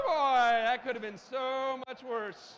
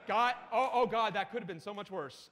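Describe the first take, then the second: First: Loud, slow, drawn-out relief; big relief. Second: Relieved exclamation at normal pitch. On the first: Speaker after presentation nearly failed to load, big relief. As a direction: stretch it out with huge relief. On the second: Speaker after a scare on screen, relieved. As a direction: let out relief at a narrow escape. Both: Real, not acted.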